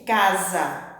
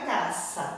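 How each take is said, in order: First: The middle consonant is a buzzing z sound. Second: The middle consonant is a hissing s sound. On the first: The speaker calls it right. "é casa" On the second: The speaker calls it wrong. "não é caça, sa"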